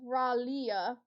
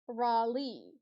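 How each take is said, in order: First: The name ends with a 'lee-uh' sound. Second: The name ends with a 'lee' sound. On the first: The speaker calls it right. "It's Ralia" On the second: The speaker calls it wrong. "Not Raleigh"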